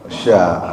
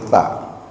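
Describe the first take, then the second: First: The consonant is a hushing sh sound. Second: The consonant is a th sound, tongue between teeth. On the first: The speaker calls it wrong. "bukan sya" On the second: The speaker calls it right. "tapi ta. Ta itu ujung lidahnya sedikit digigit"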